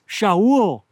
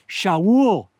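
The two takes are said the same way.

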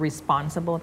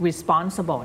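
First: "responsible" with a hard P and no puff; unaspirated P. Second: "responsible" with a puff of air on the P; wrong aspirated P. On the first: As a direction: say the P in "responsible" like a B after S. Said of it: "ทำให้มันเป็นเสียงปอปลา". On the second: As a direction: say "responsible" with a breathy English P after the S. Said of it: "เสียงเพอ". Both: Shown as a demonstration.

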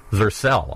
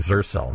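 First: Zercel with the second syllable stressed. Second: Zercel with the first syllable stressed. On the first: Host correcting himself on the company name, Zercel stressed on the second syllable. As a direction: say Zercel leaning on its last syllable. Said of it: "you put the emphasis on the second syllable". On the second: Host owning up to his usual slip, Zercel stressed on the first syllable. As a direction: say Zercel leaning on its opening syllable. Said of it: "I keep saying Zercel". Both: Shown as a demonstration.

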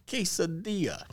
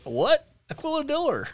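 First: "quesadilla" as kay-sa-DEE-a, syllables spelled out; correct Spanish pronunciation. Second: High, loud mock bafflement; incredulous dad. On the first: Retold or imitated. Son correcting Dad at dinner, careful pronunciation. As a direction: say "quesadilla" carefully with a silent double l. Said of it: "Dad, it's a quesadilla". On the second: Son imitating Dad corrected on his order, incredulous. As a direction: imitate Dad blurting it back, pitch shooting up. Dad's baffled reply, retold.

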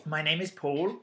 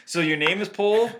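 First: Paul with a long aw, unlike pool; distinct pronunciation. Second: Paul said to sound like pool; mock the co-host's PAUL with an oo vowel; mimicking co-host's pronunciation. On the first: Shown as a demonstration. Co-host defending his name, pronouncing Paul distinctly. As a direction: say PAUL carefully with its own aw vowel. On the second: Co-host teasing Paul about his name, mimicking his vowel. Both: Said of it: "They all sound markedly different".

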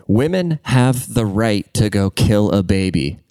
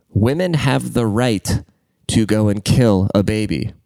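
First: Put-on slow, measured "Women have the right to go kill a baby" in one run; deliberate rewording. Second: Put-on slow "Women have the right", pause, then "to go and kill a baby"; emphatic repetition. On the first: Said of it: "No, let me reword that". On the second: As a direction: repeat it deliberately, breaking after "right" before "to go and kill a baby". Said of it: "I'm gonna say that again". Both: Shown as a demonstration.

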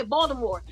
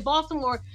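First: "Baltimore" with no audible T; dropped T, like natives. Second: "Baltimore" with the T sounded; clear T. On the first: Retold or imitated. Host imitating Baltimore natives, T in "Baltimore" left unheard. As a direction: say "Baltimore" like a local, swallowing the T. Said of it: "You don't even hear a T". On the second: Shown as a demonstration. Host showing how they say it, T in "Baltimore" sounded. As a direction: say "Baltimore" with an audible T after the L. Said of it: "You can hear the T".

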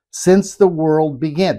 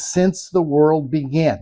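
First: Slow, deliberate weight on "Since the world began"; emphatic repeat. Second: Said in the usual way. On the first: Shown as a demonstration. Preacher stressing the verse to the congregation, "Since the world began" said emphatically. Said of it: "Let me, let me emphasize that". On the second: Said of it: "let me emphasize that".

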